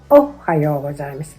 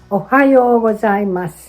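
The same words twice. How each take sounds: First: The stress is on the first syllable, o. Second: The stress is on the second syllable, ha. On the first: The speaker calls it wrong. "many beginners put stress on the first syllable o" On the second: The speaker calls it right. "the second syllable ha is stressed"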